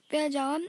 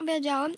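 Both takes have the same delivery.

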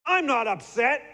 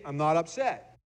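First: High, loud, clipped "I'm not upset"; tense denial. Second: Said in the usual way. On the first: Shown as a demonstration. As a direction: snap it out, plainly upset. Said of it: "I noticed I even spit when I said that". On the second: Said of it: "the words say".

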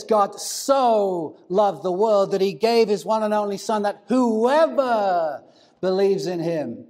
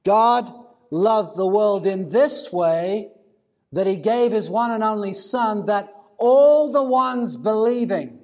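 First: "whoever" drawn out long, with heavy weight; stress on whoever. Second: Weighty slow reading, leaning on "this way" and "all"; corrected emphatic reading. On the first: Preacher showing how the verse is often heard, stress on "whoever". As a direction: stretch and lean hard on "whoever". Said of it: "The emphasis on the whoever". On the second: Preacher reading out the actual original, stress on "all the ones believing". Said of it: "the actual original reads something like this". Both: Shown as a demonstration.

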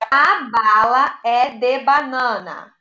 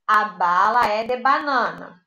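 First: Each word slow and clear; teacher reading the sentence aloud; slow dictation read. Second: Said in the usual way. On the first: Shown as a demonstration. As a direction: read it slowly for children. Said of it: "teacher reads sentence". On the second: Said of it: "repeated at normal pace".

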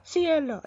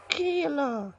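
First: Ciela said as see-EL-a; corrected take. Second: Ciela said as KEE-la; wrong first take. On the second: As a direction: Ciela with a hard K start. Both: Acted.

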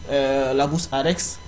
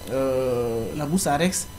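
The two takes are said the same way.

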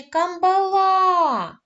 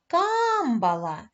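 First: "камбала" called loud and high with a long final "ла"; calling, last-syllable stress. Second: "Камбала" called high with a long "Кам"; calling, first-syllable stress. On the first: Teacher showing the wrong choice, "камбала" called on the last syllable. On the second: Teacher offering pupils a choice, "Камбала" called on the first syllable. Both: Shown as a demonstration. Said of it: "як правильно гукати це слово".

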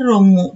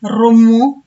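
First: రొమ్ము shorter, with a light r; present-day soft r. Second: రొమ్ము loud, with a strongly rolled r; old hard r. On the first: Teacher showing today's letter, రొమ్ము with light r. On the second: Teacher showing the old letter, రొమ్ము with hard rolled r. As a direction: roll the r of రొమ్ము hard and lift the end. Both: Shown as a demonstration. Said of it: "ఇలా వీటిని పలుకుతున్నాము".

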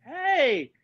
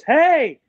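First: High hey at an ordinary volume; answering greeting. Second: High, loud, drawn-out hey; loud greeting. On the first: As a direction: echo the hello up high, without the volume. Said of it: "And I go". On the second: Talk show host greeting a guest at the door, loud and high. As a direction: call out a big hello. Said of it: "he opens the door and he goes". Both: Retold or imitated.

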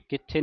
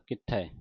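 First: ਕਿੱਥੇ ending in a close e; ਕਿੱਥੇ with a narrow final vowel; mistaken final e. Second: ਕਿੱਥੈ ending in an open ai; ਕਿੱਥੈ with a wide final vowel; correct final ai. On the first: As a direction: say ਕਿੱਥੇ as kit-thay. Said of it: "ਕਿੱਥੇ ਨਹੀਂ ਪੜ੍ਹਨਾ". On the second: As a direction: say ਕਿੱਥੈ as kit-thai, like eh. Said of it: "ਕਿੱਥੈ ਪੜ੍ਹਨਾ ਦਲਾਵਾਂ ਦੇ ਨਾਲ". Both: Shown as a demonstration.

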